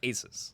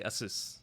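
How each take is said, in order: First: The ending does not sound like Pegasus. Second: The ending sounds like the end of Pegasus. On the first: The speaker calls it wrong. "for years, I called it Asus" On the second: The speaker calls it right. "is like Pegasus. So I say Asus"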